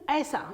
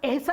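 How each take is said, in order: First: The first vowel is an 'ai' sound. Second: The first vowel is a plain 'e' sound. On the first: The speaker calls it right. "ऐ की आवाज" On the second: The speaker calls it wrong. "नहीं"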